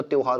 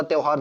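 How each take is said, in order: First: "त्यौहार" with a round o, tyo-haar; correct form demonstrated. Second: "त्यौहार" with a wide au, tyau-haar; wrong form demonstrated. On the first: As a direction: round the first vowel of "त्यौहार" to o. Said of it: "त्यौहार होता है". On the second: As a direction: open the first vowel of "त्यौहार" to au. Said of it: "ये वाला त्यौहार नहीं होता". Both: Shown as a demonstration.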